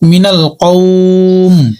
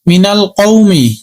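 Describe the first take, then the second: First: The word ends on 'm' without a vowel. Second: The word ends with a final 'i' vowel. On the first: The reader stops at this point. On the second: The reader continues without stopping.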